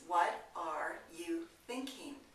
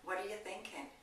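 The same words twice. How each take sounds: First: 'What are' is said as two full words. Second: 'What are' is reduced and run together. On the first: "That means" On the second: "I said"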